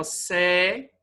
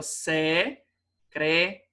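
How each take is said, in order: First: "secretaria" in five pieces: se - cre - ta - ri - a; wrong syllable split. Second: "secretária" slowly in four pieces: se - cre - tá - ria; correct syllable split. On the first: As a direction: chop "secretaria" up, separating the final ri and a. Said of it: "Errado, tá?". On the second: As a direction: say "secretária" syllable by syllable, final ria kept together. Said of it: "o correto seria". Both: Shown as a demonstration.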